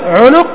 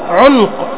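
First: The middle consonant carries a u vowel. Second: The middle consonant is silent, without a vowel.

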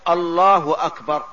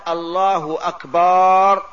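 First: The vowels in the second word are short. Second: A vowel in the second word is drawn out. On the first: The speaker calls it right. "وبهذا اللفظ الله أكبر" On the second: The speaker calls it wrong. "بمد الهمزة بمد الباء لا تنعقد"

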